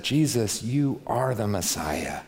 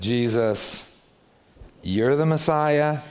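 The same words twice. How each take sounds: First: Sincere confession. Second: Sarcastic. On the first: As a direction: say it with reverent conviction. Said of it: "See what I mean? It's the same words". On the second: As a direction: sneer it as if you don't believe it. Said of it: "It means the exact opposite thing". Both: Shown as a demonstration.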